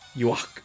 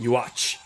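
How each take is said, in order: First: The name has a mild German pronunciation. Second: The name has a strong, harsh German pronunciation. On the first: "it would be something like uh, yeah Yuach" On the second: "if you go extremely German"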